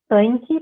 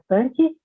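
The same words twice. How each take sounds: First: The nasal vowel glides into a diphthong. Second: The nasal vowel is a single plain vowel. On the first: "existe uma realização uh, como tanque" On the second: "para a palavra tanque"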